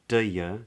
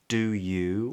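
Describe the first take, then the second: First: The second word is weakened to 'ya'. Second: Both words are said fully and separately. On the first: "or even do ya" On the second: "we don't get do you"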